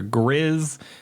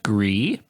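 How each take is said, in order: First: The name is said an English way. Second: The name is said the French way. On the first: The speaker calls it wrong. "a lot of people keep reading it as" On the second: The speaker calls it right. "if I am pronouncing this correctly"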